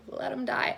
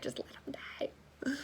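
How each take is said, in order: First: Laughing. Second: Breathy whispered plea, slow; mock whisper. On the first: Retold or imitated. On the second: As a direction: whisper it like a secret wish. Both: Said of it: "I was just like".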